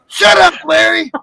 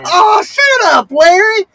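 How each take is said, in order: First: It sounds angry and annoyed. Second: It sounds playful and teasing.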